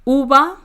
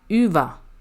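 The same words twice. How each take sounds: First: The u is said as an oo sound. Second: The u is said as a French u sound. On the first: The speaker calls it right. "on le prononce comme un, un E U, ou. Donc on dira uva" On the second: The speaker calls it wrong. "et pas uva"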